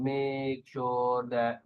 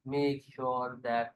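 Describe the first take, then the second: First: The phrase is drawn out very slowly. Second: The phrase is only slightly slowed, sounding natural. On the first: The speaker calls it wrong. "इतना slow नहीं कि जैसे मेक sure दैट, इस तरह नहीं बोलना" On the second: The speaker calls it right. "थोड़ा सा स्लो करके जो नेचुरल चीज है"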